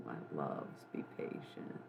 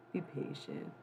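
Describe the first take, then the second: First: Breathy hushed whisper; soft whisper. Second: Said in the usual way. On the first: Shown as a demonstration. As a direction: whisper it gently.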